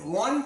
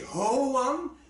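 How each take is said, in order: First: It is one syllable, gliding into the vowel. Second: It is split into two separate syllables. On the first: The speaker calls it right. "you pronounce it a little bit like a word ... a short word" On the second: The speaker calls it wrong. "it's also two syllables"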